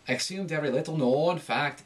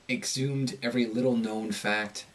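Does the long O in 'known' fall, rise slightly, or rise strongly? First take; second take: strong rise; fall. First: The long O vowel rises strongly in pitch. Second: The long O vowel falls in pitch. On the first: "it's too much" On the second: "In the American accent, when you have a long O, it tends to go down in pitch"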